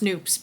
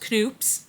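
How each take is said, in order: First: The initial K sound is silent. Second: The initial K sound is pronounced. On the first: This is probably the proper pronunciation. "It's probably pronounced Noops" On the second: This is the name a friend taught the speaker. "I'm going to call it, is called Knoops"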